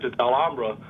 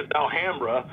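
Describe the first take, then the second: First: It is said with a Spanish accent. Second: It is said with a Southern American accent.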